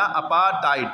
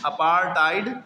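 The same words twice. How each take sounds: First: अपार्थाइड without the R, apaa-taid; अपार्थाइड with long aa straight into hard T; R dropped. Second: अपार्थाइड with an R, apaar-taid; अपार्थाइड with R before unaspirated hard T; R sounded. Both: Shown as a demonstration. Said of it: "इसको क्या पढ़ते हैं".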